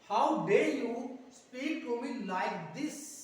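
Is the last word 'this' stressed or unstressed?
stressed. The final word 'this' is strongly stressed. The speaker calls it right. "ये अच्छा है।"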